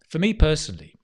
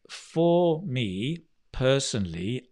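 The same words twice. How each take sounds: First: The words run together as one sound. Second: Each word is said separately with full forms. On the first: The speaker calls it right. "this becomes one sound" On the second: The speaker calls it wrong. "instead of thinking of words like"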